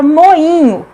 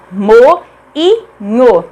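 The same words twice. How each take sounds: First: Said in the usual way. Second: "moinho" broken into mo... i... nho, pauses between; syllable by syllable. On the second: Shown as a demonstration. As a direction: sound out "moinho" in three separate syllables. ("moinho" silabado, com pausas: mo... i... nho) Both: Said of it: "Cada uma fica em uma sílaba diferente".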